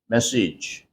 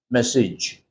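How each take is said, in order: First: The final syllable is a short 'ij' sound. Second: The same.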